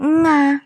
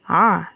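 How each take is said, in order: First: The sound begins with a nasal ng. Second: The vowel is made deep in the throat. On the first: The speaker calls it wrong. "bukan juga nga" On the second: The speaker calls it right. "ada suara di dalam kerongkongan kita"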